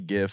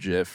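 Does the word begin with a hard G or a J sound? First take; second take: hard G; J sound. First: The word begins with a hard G sound. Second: The word begins with a soft J sound. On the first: The speaker calls it right. "thank God you say GIF" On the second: The speaker calls it wrong. "and not GIF"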